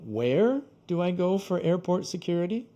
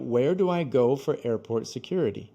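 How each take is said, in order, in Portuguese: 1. A palavra where recebe ênfase extra forte. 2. A palavra where não recebe ênfase extra. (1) "você pode colocar mais ênfase no where" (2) "a pergunta normal seria"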